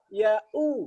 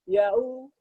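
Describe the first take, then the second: First: The glottal stop is made clearly and firmly. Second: The glottal stop blends softly into a w sound. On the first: The speaker calls it right. "Harusnya apa?" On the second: The speaker calls it wrong. "Kan nggak serius kan?"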